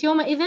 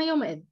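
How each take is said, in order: First: يومئذ with the tanween sounded as -in; tanween ending. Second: يومئذ stopped on a vowelless ð; original sukun form. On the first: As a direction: end يومئذ on a clear "-ðin". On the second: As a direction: end يومئذ on ð, with no "-in". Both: Shown as a demonstration. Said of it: "الأصل لأنها يومئذ".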